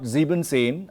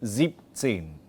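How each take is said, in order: First: The -en ending of sieben is kept. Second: The -en ending of sieben is dropped. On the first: The speaker calls it wrong. "not siebzehn" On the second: The speaker calls it right. "again the E N gets dropped out"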